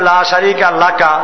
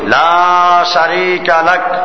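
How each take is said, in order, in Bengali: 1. শেষ শব্দটি একটি শেষ স্বরে শেষ হয়। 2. শেষ শব্দটি ব্যঞ্জনে শেষ হয়, কোনো স্বর নেই। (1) "লেখা আছে লা শারীকা লাকা" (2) "থামলে সাকিন হয়ে যায়"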